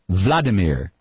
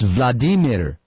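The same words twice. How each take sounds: First: The name is said with American pronunciation. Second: The name is said with Russian pronunciation. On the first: The speaker calls it wrong. "not Vladimir" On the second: The speaker calls it right. "In Russian, it's Vladimir"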